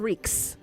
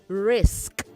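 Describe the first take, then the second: First: The word ends with a k then s sound. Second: The word ends with an s then k sound. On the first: The speaker calls it wrong. "not R I K S" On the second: The speaker calls it right. "It is R I S K"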